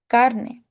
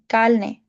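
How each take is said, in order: First: The word is said with an r sound. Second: The word is said with an l sound. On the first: This is the usual Spanish way. "which is pronounced carne" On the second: This is how Cubans say it. "but they say carne"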